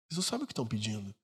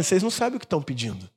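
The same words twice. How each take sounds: First: Much softer and quicker, almost under the breath; soft fast repeat. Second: Said in the usual way. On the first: Shown as a demonstration. Pastor repeats Jesus's warning, hushed and quick. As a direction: let the line fall away in a hushed echo.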